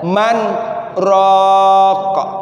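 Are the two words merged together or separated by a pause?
paused. A short stop separates the two words. The speaker calls it right.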